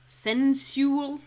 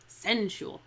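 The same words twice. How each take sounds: First: "sensual" as SEN-syu-al, high and loud; three-syllable sensual. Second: "sensual" compressed to SEN-shul; two-syllable sensual. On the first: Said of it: "no, sensual". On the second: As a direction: run the end of "sensual" together as one syllable. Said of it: "make this word two syllables". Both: Shown as a demonstration.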